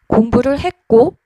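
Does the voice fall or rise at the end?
rise. The pitch rises at the end. It sounds stiff rather than friendly. The speaker calls it wrong. "이렇게 올라가는 경우가 많거든요"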